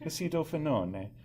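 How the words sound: The word is said with an Italian-sounding flair. The speaker calls it wrong. "It sounds very Italian when you say it that way"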